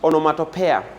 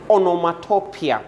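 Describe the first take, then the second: First: The word is said in a commonly heard variant. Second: The word is said in its standard form. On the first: Other people say it this way. The speaker calls it wrong. "I've heard people say" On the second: This is the accepted way to say it. The speaker calls it right. "the correct pronunciation is"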